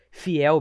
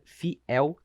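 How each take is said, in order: First: Said in the usual way. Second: "fiel" split as fi, el, two separate vowels; split hiatus. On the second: Shown as a demonstration. Teacher showing the hiatus in "fiel", split into fi-el. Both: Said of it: "tem sons diferentes".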